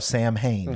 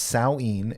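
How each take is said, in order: First: It is said as it looks written. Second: It is said differently from how it looks written. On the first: The speaker calls it wrong. "you probably think, oh, Sam Hain" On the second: The speaker calls it right. "it's pronounced Samhain"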